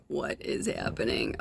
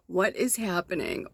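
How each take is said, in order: First: Soft, unvoiced, amazed whisper; bewildered whisper. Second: Said in the usual way. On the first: Real, not acted. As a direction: breathe the question in disbelief. Stunned as something vanishes.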